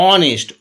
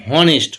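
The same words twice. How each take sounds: First: অনেস্ট opening straight on the "o" vowel; silent H. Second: হনেস্ট with an audible "h" at the start; wrongly sounded H. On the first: Teacher showing the real pronunciation, অনেস্ট with silent h. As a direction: drop the h, begin অনেস্ট on a clear "o". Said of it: "এদিকে কী হচ্ছে?". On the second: Teacher showing what nobody says, হনেস্ট with the h pronounced. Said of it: "আমরা কেউ বলি না যে". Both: Shown as a demonstration.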